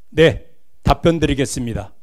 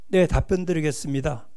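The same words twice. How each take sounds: First: It is said at a steady, firm pace. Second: It is said in a weak, soft voice.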